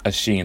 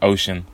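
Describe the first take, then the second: First: The name sounds different from the English word ocean. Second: The name sounds just like the English word ocean. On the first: The speaker calls it right. "but it's really pronounced Oisin" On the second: The speaker calls it wrong. "I've been calling him Ocean the whole time"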